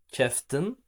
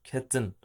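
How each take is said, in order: First: An f sound is heard before the t. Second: No f sound is heard before the t. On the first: "Ama keftin de var mı? Var" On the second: "biz daha çok bu fiilin şu söylenişine aşinayız"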